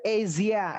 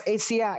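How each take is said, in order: First: "Asia" with a voiced zh, "ezia". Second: "Asia" with a hissed s, "esia". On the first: Teacher demonstrates the nicer Z pronunciation. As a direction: say "Asia" with the zh buzz. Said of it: "Pakai Z". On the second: Teacher demonstrates the S pronunciation that sounds off. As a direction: say "Asia" with a plain s. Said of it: "Atau pakai S". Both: Shown as a demonstration.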